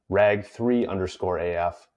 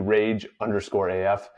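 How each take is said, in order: First: The name begins with 'rag' then 'three'. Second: The name begins with the single word 'rage'. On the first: The speaker calls it wrong. "I was incorrectly pronouncing as" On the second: The speaker calls it right. "saying it's rage with a three"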